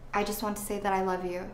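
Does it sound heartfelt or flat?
flat. It is said flatly, without real feeling.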